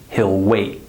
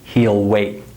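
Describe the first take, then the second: First: He'll has a short I vowel, like hill. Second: He'll has a long E vowel, like heel. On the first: The speaker calls it right. "I would say" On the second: The speaker calls it wrong. "I wouldn't say"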